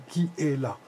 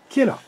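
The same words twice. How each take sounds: First: It is said slowly in three syllables. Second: It is said quickly in two syllables. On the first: The speaker calls it wrong. "et non pas qui est là" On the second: The speaker calls it right. "Plus vite. ... ça fait que deux syllabes"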